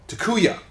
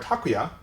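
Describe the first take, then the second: First: The middle syllable carries a strong stress. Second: The middle syllable carries no strong stress. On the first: This is how English dub actors say it. "they say atsuko, takuya" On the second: This is how Japanese speakers say it. "Instead of saying atsuko or takuya"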